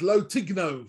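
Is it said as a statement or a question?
statement. It is said as a flat statement.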